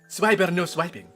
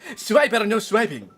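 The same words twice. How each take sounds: First: It is said at a softer, normal volume. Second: It is said at a louder volume.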